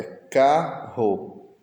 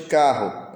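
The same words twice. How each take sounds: First: Carro slowly split as ca, rro; syllable by syllable. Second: Said in the usual way. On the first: Shown as a demonstration. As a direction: leave a gap between ca and rro in carro. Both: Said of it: "Separe a sílaba de carro".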